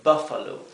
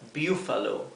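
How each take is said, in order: First: The first vowel is a short 'uh' sound. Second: The first vowel is a long 'oo' sound. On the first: The speaker calls it right. "se lee buffalo" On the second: The speaker calls it wrong. "Esto no se leería buffalo"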